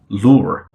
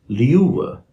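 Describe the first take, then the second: First: The oo vowel follows with no y sound. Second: A y sound comes before the oo vowel. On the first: "standard American English speaker would say" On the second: "a standard British English speaker would say"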